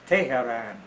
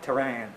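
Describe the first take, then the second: First: The name has a local Persian pronunciation. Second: The name has an American English pronunciation. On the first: The speaker calls it right. "It's Tehran" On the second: The speaker calls it wrong. "It's not Tehran"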